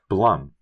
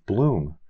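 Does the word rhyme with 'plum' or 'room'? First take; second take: plum; room. First: The vowel is a short 'u' sound. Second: The vowel is a long 'oo' sound. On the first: The speaker calls it right. "when it's actually Blum, as in Blumpkin" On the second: The speaker calls it wrong. "he pronounced it as Bloom"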